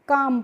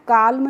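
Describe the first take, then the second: First: The L sound is silent before the M. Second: The L sound is pronounced before the M. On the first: The speaker calls it right. "एल होती है उसका pronunciation बच्चों हम नहीं करते हैं" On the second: The speaker calls it wrong. "इसको हम काल्म नहीं पढ़ते हैं"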